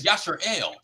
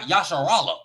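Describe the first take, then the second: First: The name ends with a final L sound. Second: The name ends with an extra vowel sound. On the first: The speaker calls it right. "It's Yashar El" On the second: The speaker calls it wrong. "It's not Yasharala"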